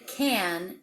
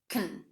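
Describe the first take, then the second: First: Can is said with a full, clear vowel. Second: Can is said quickly with a schwa vowel. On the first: "the word can" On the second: "I reduced the word can to can"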